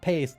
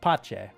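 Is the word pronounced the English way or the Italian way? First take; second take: English; Italian. First: It is said like the English word pace. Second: It is said the Italian way, like pah-cheh. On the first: The speaker calls it wrong. "that's not pace" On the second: The speaker calls it right. "that's pace, which is Italian for peace"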